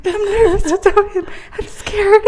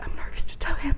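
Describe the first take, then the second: First: Much higher, laughing fear; mock nervous whine. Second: Whispered, as if hiding from the phone; nervous whisper. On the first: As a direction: whine it like a scared kid. Jose nervous on the phone. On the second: Retold or imitated. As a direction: hush it, scared of being heard.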